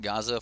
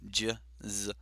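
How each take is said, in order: First: The name begins with a hard g sound. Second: The name begins with a j sound. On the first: The speaker calls it wrong. "I was uh, calling it Gaza for a little while" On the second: The speaker calls it right. "apparently it's Jizza"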